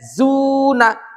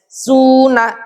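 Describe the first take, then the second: First: The word begins with a buzzing z sound. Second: The word begins with a hissing s sound. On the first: The speaker calls it right. "seperti Z" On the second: The speaker calls it wrong. "Jangan sampai seperti S"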